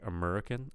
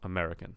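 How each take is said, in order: First: The vowel sounds like 'uh'. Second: The vowel sounds like 'eh'. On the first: The speaker calls it wrong. "instead of a, uh, uh" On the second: The speaker calls it right. "but I want American, eh, eh"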